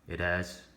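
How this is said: It sounds flat and unsurprised. The speaker is not surprised by the news. The speaker calls it wrong. "I don't sound surprised"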